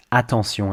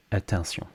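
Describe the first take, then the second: First: Attention as AH-ton-syon; full French vowel. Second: Attention as uh-ton-syon; French attention with the A reduced to schwa; crushed vowel. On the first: Teacher gives the model to copy, full-vowel attention. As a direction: open the A of French attention fully. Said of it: "make sure you say attention". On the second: Teacher shows the learner's mistake, crushed-vowel attention. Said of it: "crushing vowels when you speak French". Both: Shown as a demonstration.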